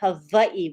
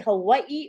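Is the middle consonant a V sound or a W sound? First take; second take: V sound; W sound. First: The middle consonant is a V sound. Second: The middle consonant is a W sound.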